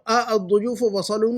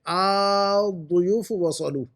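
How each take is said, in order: First: The opening vowel is short. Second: The opening vowel is drawn out long. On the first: The speaker calls it wrong. "हम अ दुयूफ वसलू नहीं लिख सकते" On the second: The speaker calls it right. "ऐसा लंबा पढ़ते हैं"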